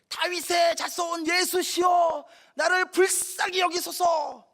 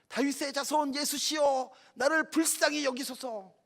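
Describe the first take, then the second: First: It is shouted with all possible force. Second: It is shouted louder than before.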